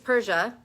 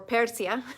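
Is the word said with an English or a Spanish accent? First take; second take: English; Spanish. First: It is said with a plain English accent. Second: It is said with a Spanish accent.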